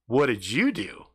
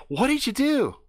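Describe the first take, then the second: First: Said in the usual way. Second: High, bright-eyed question in her put-on voice; girl voice asking what he did. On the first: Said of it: "turning the tables at her". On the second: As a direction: ask it the way she would.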